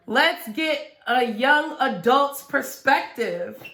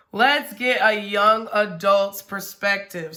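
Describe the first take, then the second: First: Playful interviewer voice. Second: Said in the usual way. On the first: Acted.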